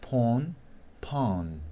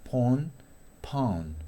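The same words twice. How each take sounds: No difference in how they are said.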